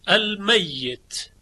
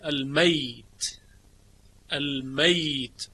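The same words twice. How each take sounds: First: المیت slowly as "al-mayyit", doubled y stressed; Hafs reading with shadda. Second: المیت slowly as "al-mayt", ya silent, no doubling; Shu'ba reading with sukun. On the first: Teacher shows students Hafs's reading, slow with doubled ya. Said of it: "المیت که یا تشدید داره". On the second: Teacher shows students Shu'ba's reading, slow with silent ya. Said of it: "به اسکان یا خونده". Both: Shown as a demonstration.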